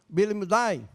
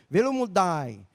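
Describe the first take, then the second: First: The word begins with a B sound. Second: The word begins with a V sound.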